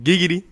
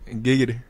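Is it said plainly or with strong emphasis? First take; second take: strong emphasis; plainly. First: It is said with strong, energetic emphasis. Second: It is said plainly, without much emphasis.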